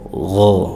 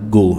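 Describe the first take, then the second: First: The first sound is a soft, rasping friction. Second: The first sound is a hard g stop. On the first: The speaker calls it right. "haluskan lagi" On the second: The speaker calls it wrong. "bukan go"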